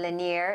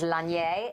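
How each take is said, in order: First: The name is given an American pronunciation. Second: The name is given a French pronunciation. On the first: "Lanier is the American way of saying it" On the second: "the French is Lanier"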